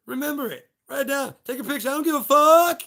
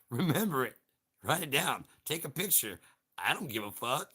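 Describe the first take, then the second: First: Yelled quote. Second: Said in the usual way. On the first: Pretend. To the audience, yelling the movie line all out. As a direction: shout every line, building to a scream on fuck. First, shouted telling of the quote.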